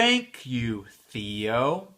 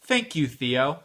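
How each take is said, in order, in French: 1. Elle est dite à un rythme normal, plutôt lent. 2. Elle est dite très vite.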